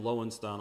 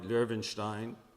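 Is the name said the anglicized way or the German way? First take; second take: anglicized; German. First: The name is said the anglicized way, without umlaut. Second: The name is said the German way, with umlaut. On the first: The speaker calls it wrong. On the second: The speaker calls it right.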